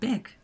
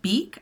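First: The vowel is a short 'i' sound. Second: The vowel is a long 'ee' sound. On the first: "I always said bick" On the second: "So is it beak?"

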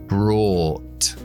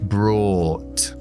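First: A British accent with rounded lips on the vowel. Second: A British accent with rounded lips on the vowel.

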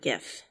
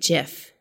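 First: The word begins with a hard G sound. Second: The word begins with a soft J sound. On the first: The speaker calls it wrong. "not GIF" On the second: The speaker calls it right. "the appropriate way is to say it GIF"

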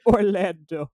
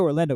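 First: The word is said in a special, marked way. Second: The word is said in a plain, normal way. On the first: "We say Orlando. ... you have to say it like that" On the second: "whenever we don't say Orlando"

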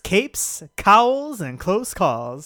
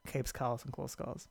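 First: It is said with more energy. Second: It is said with little energy.

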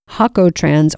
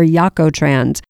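First: The word begins with an H sound. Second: The word begins with a Y sound. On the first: "The J in Spanish is often pronounced like an H" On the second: "or Yakotrans"

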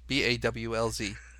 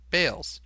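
First: The vowel sounds like the one in 'ball'. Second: The vowel sounds like the one in 'bale'. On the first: This is how the mayor chose to say it. "I'm going to pronounce my last name Balls" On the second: This is how the family has always said it. "all his descendants have always gone by the last name pronunciation Bales"

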